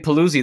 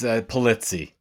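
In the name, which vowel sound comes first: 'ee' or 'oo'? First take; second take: ee; oo. First: The 'ee' vowel comes before the 'oo' vowel. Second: The 'oo' vowel comes before the 'ee' vowel. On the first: The speaker calls it wrong. "most people say Pulizzi, they transpose the U and the I" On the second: The speaker calls it right. "but it's Pulizzi"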